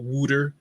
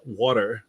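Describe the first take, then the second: First: Water said as "wooder", Philly style; Philly dialect. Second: Said in the usual way. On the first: Shown as a demonstration. Showing viewers the Philly dialect, Philly accent. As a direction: give water the Philly "oo" vowel. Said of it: "talk about Philly dialects". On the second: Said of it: "W O O D E R is wa-, water".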